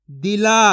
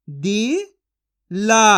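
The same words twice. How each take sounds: First: Said in the usual way. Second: दिला stretched slowly; slow drawn-out sounding. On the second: Shown as a demonstration. Teacher stretching दिला slowly for children to copy. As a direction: draw out दिला very slowly for the class. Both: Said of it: "मैं किस तरीके से एक एक अक्षर का उच्चारण करके".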